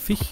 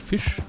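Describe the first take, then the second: First: The word ends with a soft ch sound. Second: The word ends with a clear sh sound. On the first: This is the regional Rhineland pronunciation. "bei uns kennt man halt nur Fisch, ... sondern Fisch" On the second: This is the standard pronunciation. "nicht Fisch"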